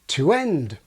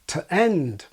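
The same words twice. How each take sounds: First: 'To' has a full 'oo' vowel before 'end'. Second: 'To' has a reduced schwa vowel before 'end'. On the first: "I have the same thing with this word" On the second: "many will often use the forms with schwa even before vowels"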